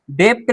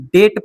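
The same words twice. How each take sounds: First: डेप्ट with a lip stop before the t; wrong, B sounded. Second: डेट as det, vowel straight to t; silent B. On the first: Teacher showing the reading to avoid, डेप्ट with the extra consonant. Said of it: "नहीं". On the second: Teacher correcting the reading, डेट without any B. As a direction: drop pitch and leave the b out of डेट. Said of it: "पढ़ते हैं". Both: Shown as a demonstration.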